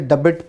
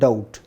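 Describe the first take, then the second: First: A b sound is pronounced in the middle. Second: The b is silent, with no b sound. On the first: The speaker calls it wrong. "वैसे तो लगता है जैसे डबिट पढ़ेंगे इसको" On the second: The speaker calls it right. "ये बी silent है इसमें।"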